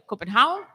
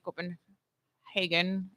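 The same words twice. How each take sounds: First: The name is pronounced the Danish way. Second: The name is pronounced a non-Danish way. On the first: "which is the Danish way" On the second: "or you can say"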